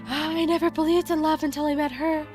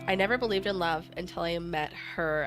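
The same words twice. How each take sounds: First: It is read in Senya's voice. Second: It is read in the speaker's own voice.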